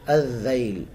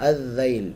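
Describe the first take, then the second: No difference in how they are said.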